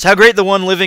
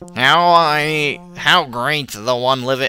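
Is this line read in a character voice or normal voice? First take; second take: normal voice; character voice. First: It is read in the speaker's normal voice. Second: It is read in a put-on character voice. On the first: "I'm not gonna do that voice" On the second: "I'm not gonna do that voice"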